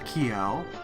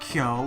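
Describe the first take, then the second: First: The vowel sounds English, gliding and changed. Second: The vowel sounds Japanese, pure and steady. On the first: The speaker calls it wrong. "is no longer" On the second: The speaker calls it right. "This has been fixed"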